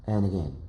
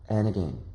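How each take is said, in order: Both takes have the same delivery.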